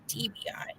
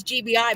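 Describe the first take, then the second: First: T B I with a crisp T, as in "tee"; T B I, starting on a T. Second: G B I, starting on a G. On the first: Retold or imitated. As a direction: say T B I with a sharp T sound. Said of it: "but I swear they kept saying". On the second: Shown as a demonstration. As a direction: say G B I with a clear G sound. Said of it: "but I swear they kept saying T B I".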